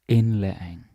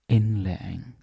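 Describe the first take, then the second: The two takes are said the same way.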